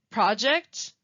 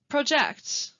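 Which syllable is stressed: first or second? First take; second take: first; second. First: The stress is on the first syllable. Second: The stress is on the second syllable. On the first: It is used as a noun. "first saying the noun" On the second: It is used as a verb. "and then the verb"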